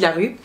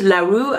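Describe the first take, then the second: First: The name is said with a French pronunciation. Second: The name is said with an English pronunciation. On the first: The speaker calls it right. "son nom est, fran est français, c'est Addie LaRue" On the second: The speaker calls it wrong. "tout le monde prononce LaRue"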